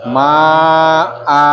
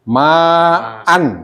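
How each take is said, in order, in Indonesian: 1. Kata ini berakhir dengan vokal a panjang. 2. Kata ini berakhir dengan bunyi n. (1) "kalau berhenti nanti dibaca ma'a" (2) "Tulisannya ya"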